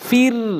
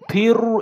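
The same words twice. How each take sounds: First: The r sound is thin and light. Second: The r sound is thick and heavy. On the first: The speaker calls it right. "এটা হচ্ছে সঠিক উচ্চারণ। মুখটা ওসার, বারিক" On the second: The speaker calls it wrong. "এটা হচ্ছে মোটা"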